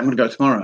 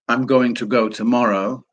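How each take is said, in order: First: "Going to" is run together and shortened. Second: "Going to" is said fully and separately. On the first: "they say" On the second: "people don't say"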